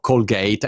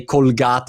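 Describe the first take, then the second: First: Said in the usual way. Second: Colgate said Italian-style as "kol-GAH-teh"; Italian pronunciation. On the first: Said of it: "instead of Colgate". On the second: Shown as a demonstration. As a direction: sound every vowel in Colgate, as Italians do. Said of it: "we also say Colgate instead of Colgate".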